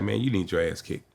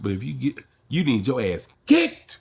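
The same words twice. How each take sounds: First: Said in the usual way. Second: Slow, leaning hard on "kicked" with a rising end; emphasis on kicked. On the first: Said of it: "if I put that emphasis on it". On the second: Shown as a demonstration. Comic showing an interviewer the punchline emphasis. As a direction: draw out "you need your ass kicked" and punch "kicked". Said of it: "So if I put that emphasis on it".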